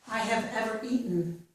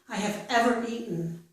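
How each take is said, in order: No difference in how they are said.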